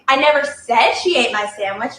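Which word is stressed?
said. The stress is on "said".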